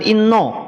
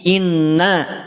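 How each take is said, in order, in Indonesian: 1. Kata ini diucapkan tebal, dengan vokal yang gelap. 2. Kata ini diucapkan tipis, dengan vokal yang terang. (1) "jangan sampai inna itu ketarik tebal" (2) "Inna itu karakternya apa? Istifal, tipis"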